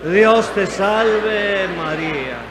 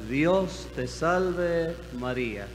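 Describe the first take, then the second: First: It is said very loudly. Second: It is said at normal volume.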